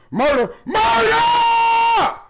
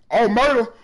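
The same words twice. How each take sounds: First: High, very slow stretched shout; hollering murder after a big play, slowly drawn out; drawn-out victory yell. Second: Said in the usual way. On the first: Real, not acted.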